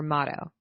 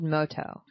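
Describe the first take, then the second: First: "Motto" with an open AH, MAH-toh; short-O pronunciation. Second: "Moto" with a long O, MOH-toh; long-O pronunciation. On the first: Host offering the other name to co-host, open-AH "Motto". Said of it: "Not Moto. Motto". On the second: Host reading out a drink's name, long-O "Moto". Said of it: "M O, or Motto". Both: Shown as a demonstration.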